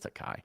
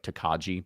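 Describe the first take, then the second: First: It ends with an 'eye' sound, no 'j'. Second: It ends with a clear 'ji' sound. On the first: The speaker calls it right. "It's Tokai" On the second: The speaker calls it wrong. "but that's not how you say it"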